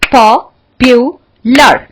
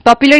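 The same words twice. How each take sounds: First: popular in three slow, punched beats; split into syllables. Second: Said in the usual way. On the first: Shown as a demonstration. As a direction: break popular as पॉ, पु, लर with pauses. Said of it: "कितने syllable का है?". (Popular को तीन हिस्सों में, रुक-रुककर) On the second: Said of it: "popular कितने सिलेबल का है?".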